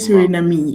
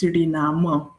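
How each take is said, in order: First: The word ends on an m sound. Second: The word ends on an a vowel. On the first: The speaker calls it wrong. "I I cannot say Suriname" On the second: The speaker calls it right. "It's Suriname"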